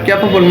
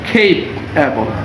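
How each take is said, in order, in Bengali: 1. প্রথম অংশটি 'kap' এর মতো শোনায়। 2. প্রথম অংশটি 'kayp' এর মতো শোনায়। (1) "এটা আমরা ক্যাপেবল না বলে" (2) "খেই হবে"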